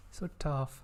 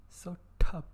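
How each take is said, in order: First: Said in the usual way. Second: "so tough" punched louder; stress on so. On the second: Shown as a demonstration. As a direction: hit "so" in "so tough" with a loud, emphatic push. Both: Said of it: "The T sounds are so".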